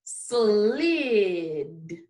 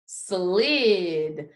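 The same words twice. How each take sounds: First: Long, gliding, lower-toned slid; say it slowly. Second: Slid as one word, less drawn out; blended back together. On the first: Teacher's turn again for the class, slowly stretched. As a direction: stretch slid out so each sound is heard. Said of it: "it's time for say it slowly". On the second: Teacher putting the sounds together for the class, blended. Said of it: "give me the sounds that you hear". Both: Shown as a demonstration.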